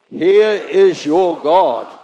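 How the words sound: It is said emphatically, with strong conviction. The speaker calls it right.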